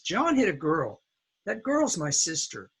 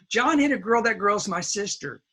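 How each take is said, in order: First: There is a pause between the two sentences. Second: Both sentences run together without a pause. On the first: The speaker calls it right. "We put the pause between sentences" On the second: The speaker calls it wrong. "you cannot put this all together"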